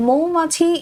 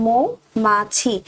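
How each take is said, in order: First: Said in the usual way. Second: "মৌমাছি" very slowly, split as mo, ma-chhi; "মৌমাছি" stretched out slowly for learners; correct pronunciation. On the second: Shown as a demonstration. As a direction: model "মৌমাছি" part by part, pausing between. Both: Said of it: "এর সঠিক উচ্চারণ হলো".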